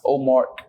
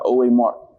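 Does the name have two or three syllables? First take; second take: two; three. First: The name is said with two syllables. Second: The name is said with three syllables. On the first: The speaker calls it wrong. "not O Mark" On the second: The speaker calls it right. "you got O A Mark"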